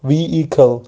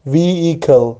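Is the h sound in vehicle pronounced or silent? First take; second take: silent; silent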